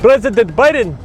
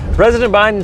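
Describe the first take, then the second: First: It is said with a put-on Spanish accent. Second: It is said in the speaker's normal accent. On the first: "That's a terrible Spanish accent" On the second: "I'm not going to do the accent"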